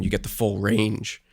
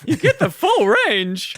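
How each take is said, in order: First: Voice cracking. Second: High squeaky mimic of a cracked voice; mock voice crack. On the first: Real, not acted. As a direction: voice cracks mid-phrase. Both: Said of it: "my voice cracked".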